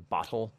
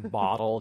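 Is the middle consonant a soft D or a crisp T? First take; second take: crisp T; soft D. First: The middle consonant is a crisp T. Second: The middle consonant sounds like a soft D. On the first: The speaker calls it right. "you say bottle" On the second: The speaker calls it wrong. "You don't say bottle"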